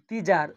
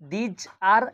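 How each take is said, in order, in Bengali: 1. দুটি শব্দ একসঙ্গে জুড়ে বলা হয়। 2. দুটি শব্দ আলাদা করে বলা হয়।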